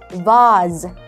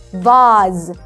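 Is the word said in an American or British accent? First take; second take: British; British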